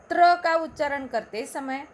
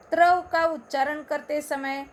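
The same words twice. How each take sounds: The two takes are said the same way.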